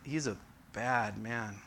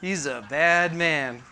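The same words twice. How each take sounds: First: It is said in a disapproving, warning tone. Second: It is said in an admiring, impressed tone. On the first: The man is dangerous and best avoided. "And you'd be like, I want to stay away from that guy" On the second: The man is cool and worth being around. "And you'd be thinking, yeah, Brian, yeah, I want to hang out with him"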